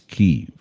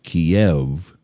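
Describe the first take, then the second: First: The name is said the newer Ukrainian-based way. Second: The name is said the older Russian-based way. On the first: This is the name as it comes from Ukrainian. The speaker calls it right. "it's Kyiv" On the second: This is the name as it came through Russian. The speaker calls it wrong. "instead of Kiev"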